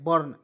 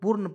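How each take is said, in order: First: The vowel is a neutral 'er' sound. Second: The vowel is a full 'oo' sound. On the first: The speaker calls it right. "इसे पढ़ने हैं बर्न" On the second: The speaker calls it wrong. "बहुत लोग बुर्न पढ़ लेता है, बिल्कुल गलत है"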